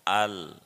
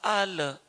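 First: The L is held with the tongue kept in place. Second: The L is released with a small bouncing echo. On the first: The speaker calls it right. "Jangan dilepas lidahnya" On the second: The speaker calls it wrong. "Kalau dilepas"

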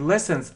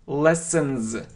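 First: The final sound is a hissing s. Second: The final sound is a buzzing z. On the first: The speaker calls it wrong. "Не lessons" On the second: The speaker calls it right. "Это как z"

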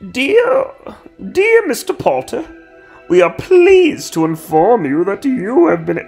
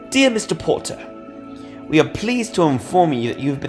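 First: It is said without a British accent. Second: It is said in a British accent.

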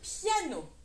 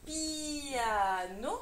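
First: The i and a blend into one ya sound. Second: The i and a are two separate syllables. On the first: The speaker calls it right. "mais bien piano. Le I plus le A fait ya" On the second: The speaker calls it wrong. "je ne lis pas piano"

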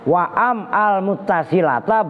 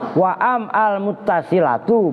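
First: The last word ends in a short 'a' vowel. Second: The last word ends in a short 'u' vowel. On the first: The phrase is joined to the preceding clause. "berarti atof kepada li annahal" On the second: The phrase starts a new independent clause. "berarti wawunya sebagai waw istinaf"

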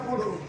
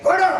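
First: It is said in a pleading, begging tone. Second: It is said in a commanding, ordering tone. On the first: The speaker is asking humbly for something. "ಆ ಯಾಚನೆ ಧ್ವನಿಯಲ್ಲಿಯೇ ಗೊತ್ತಾಗ್ತದೆ" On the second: The speaker is ordering someone to give. "ಇದು ಆಜ್ಞೆ ಮಾಡಿದ"

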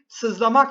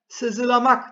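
First: No vowel is heard after 'sız'. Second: An extra vowel is heard after 'sız'. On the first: The speaker calls it right. "sızlamak şeklinde telaffuz ederiz" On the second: The speaker calls it wrong. "sızılamak değil"

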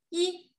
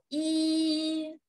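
First: The sound is short and light. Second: The sound is long and loud. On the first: It is the initial consonant. "读的时候要轻一点，短一点" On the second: It is the simple vowel final. "单韵母一读的时候要长一点，响亮一点"

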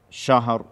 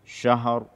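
The two takes are said the same way.

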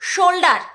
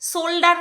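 First: It begins with an sh sound. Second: It begins with a plain s sound. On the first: The speaker calls it right. "তালিবর্ষ" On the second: The speaker calls it wrong. "শোল্ডার নয়, দন্তস্ব নয়"

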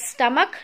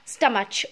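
First: The middle sound is a plain k sound. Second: The middle sound is a ch sound. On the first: The speaker calls it right. "you will pronounce it as stomach" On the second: The speaker calls it wrong. "not stomach"

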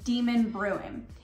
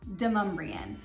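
First: It sounds like the words demon and bruin. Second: It sounds like one word, demumbrian. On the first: The speaker calls it wrong. "it is not pronounced Demon Bruin" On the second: The speaker calls it right. "It's pronounced Demumbrian"

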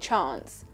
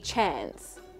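First: It is said with a British accent. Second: It is said with an American accent. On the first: "she's also British, so she would just say chance" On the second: "An American would be chance"

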